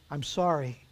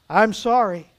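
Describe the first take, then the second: First: Soft, quiet apology; subdued apology. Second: Projected, unyielding apology; firm apology. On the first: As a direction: drop the volume and apologise. Auctioneer lays down gavel, apologises. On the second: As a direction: apologise firmly to the whole room. Auctioneer answers the protest firmly. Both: A narrator's reading.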